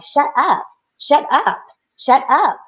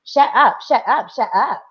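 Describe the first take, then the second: First: Higher, sing-song "shut up" taunt; mock bossy girl. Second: Put-on light Valley Girl "shut up"; a hint of a Valley Girl needling; Valley Girl taunt. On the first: The girl in daughter's face taunting her, mild mock. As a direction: imitate a pushy schoolgirl, lightly. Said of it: "she was like". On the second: Mother retelling the girl's taunt, lightly Valley Girl. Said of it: "saying in a Valley Girl way".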